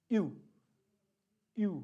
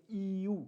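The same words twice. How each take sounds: First: यू as one quick syllable, ee barely touched; fast ee glide. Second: ई यू with a long ee before the u; separated ee-yu. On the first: Teacher showing U umlaut said quickly, merged glide. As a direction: snap ee into oo on यू. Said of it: "अब ई को फटाफट बोलना है". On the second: Teacher breaking down U umlaut, parts drawn out. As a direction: draw out ई, then glide into यू. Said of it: "बिंदी लगाते". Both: Shown as a demonstration.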